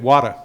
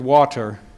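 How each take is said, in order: First: It is said in a New England accent, T dropped. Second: It is said with a clear T sound.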